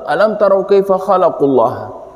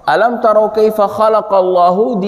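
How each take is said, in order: First: The vowel after 'khalaq' is a 'u'. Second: The vowel after 'khalaq' is an 'a'. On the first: People created God. The speaker calls it wrong. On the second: People see how God created. The speaker calls it right.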